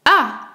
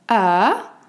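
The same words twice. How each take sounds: First: The pitch falls sharply from high to low. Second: The pitch rises from middle to high. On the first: "Il commence par l'aigu et descend très grave" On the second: "un ton montant du médium vers l'aigu"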